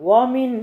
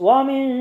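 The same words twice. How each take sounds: No difference in how they are said.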